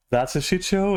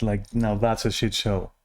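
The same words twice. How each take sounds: First: "That's a shit show" repeated with pitch jumping much higher; emphatic repeat. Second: Said in the usual way. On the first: Real, not acted. Repeat of phrase, pitch jumps.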